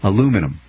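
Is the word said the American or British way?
American. It has four syllables, ending in -um. The speaker calls it right. "We say it right in America"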